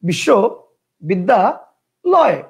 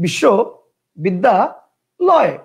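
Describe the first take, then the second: First: The word is broken into three separate chunks. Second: The word is broken into three separate chunks.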